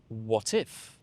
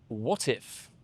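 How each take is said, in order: First: The T is pronounced and linked into 'if'. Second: The same.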